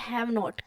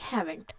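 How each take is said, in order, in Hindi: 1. यह दो अलग शब्दों के रूप में बोला जाता है। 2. यह एक जुड़े हुए शब्द के रूप में बोला जाता है।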